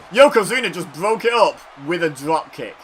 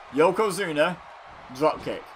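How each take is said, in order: First: Said in the usual way. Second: "Yokozuna," then a pause, then "drop kick" stressed; slow emphatic repeat. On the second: Real, not acted. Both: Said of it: "Those words just happened in the same sentence".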